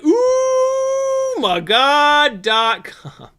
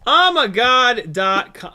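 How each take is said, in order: First: The first word is said as a drawn 'ooh'. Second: The first word is said as a plain 'oh'.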